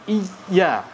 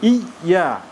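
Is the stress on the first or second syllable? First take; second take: first; first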